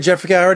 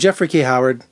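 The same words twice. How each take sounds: First: The name is said fast. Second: The name is said slowly.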